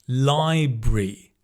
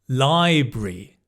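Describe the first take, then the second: Both takes have the same delivery.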